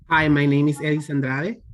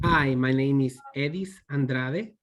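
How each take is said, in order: First: The first and last name run together. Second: There is a pause between first and last name.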